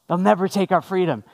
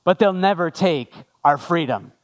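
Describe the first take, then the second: First: Said in the usual way. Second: Famous battle line, delivered with weight; William Wallace. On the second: Acted. Pastor quoting the film's famous line, measured and lightly dramatic. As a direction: pause before the last words for mild dramatic effect. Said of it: "you know this line".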